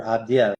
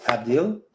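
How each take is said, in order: First: Abdiel said as "ab-dee-EL"; three-syllable pronunciation. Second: Abdil said as "ab-DEEL"; two-syllable pronunciation. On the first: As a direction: split the end of Abdiel into "dee-el". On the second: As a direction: end Abdil on a single "deel". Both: Shown as a demonstration. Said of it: "or Abdiel".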